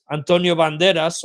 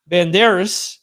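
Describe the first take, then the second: First: Antonio Banderas with a tapped r; Spanish pronunciation. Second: Banderas with Spanish vowels; Banderas, Spanish style; Spanish pronunciation. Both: Shown as a demonstration. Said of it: "they do that here in Spain".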